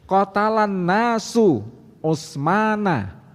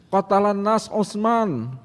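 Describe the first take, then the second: First: The words end with their final case vowels. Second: The words end without their final case vowels. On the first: The people killed Utsman. The speaker calls it right. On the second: It is unclear who killed whom. The speaker calls it wrong. "bisa berarti wahai Ali, orang-orang membunuh Utsman, atau bisa berarti sebaliknya"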